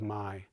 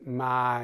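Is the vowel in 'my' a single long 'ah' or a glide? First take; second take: glide; single 'ah'. First: The vowel glides from 'ah' to 'ee'. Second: The vowel is a single long 'ah' sound.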